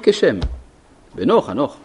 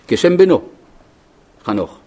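First: The pause comes after the first word. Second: The pause comes after the second word. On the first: His son Enoch named the city Shechem. The speaker calls it right. "יש כאילו הפסקה אחרי המילה כשם" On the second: The city was named after his son Enoch. The speaker calls it wrong. "בדרך כלל היה צריך להיות הפוך, מרחה טיפחה"

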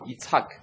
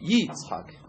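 First: The stress is on the last syllable. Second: The stress is on the first syllable. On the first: "בעיקרו צריך להגיד יצחק, והטעמה מלרע" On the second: "אבל פה צריך להגיד יצחק"

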